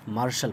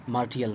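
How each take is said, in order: First: मार्शल with a sh sound before the l; correct pronunciation. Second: मार्टियल with a separate t-i-al ending; wrong pronunciation. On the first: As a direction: say मार्शल in two syllables, sh replacing t-i. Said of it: "मार्शल पढ़ते". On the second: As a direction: say मार्टियल with a hard t, not a sh. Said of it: "मार्टियल नहीं पढ़ते इसे". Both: Shown as a demonstration.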